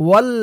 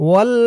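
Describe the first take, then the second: No difference in how they are said.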